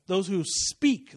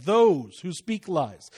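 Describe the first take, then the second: First: Drawn-out "speak", slow and deliberate; stress on SPEAK. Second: Slow, with "those" leaned on hard; stress on THOSE. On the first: Preacher correcting a misquoted verse, emphatic on "speak". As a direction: linger on "speak" to set the person apart. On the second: Preacher pointing at who the verse condemns, stressing "those". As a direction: punch "those" to point at the people. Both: Shown as a demonstration. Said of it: "not the lies".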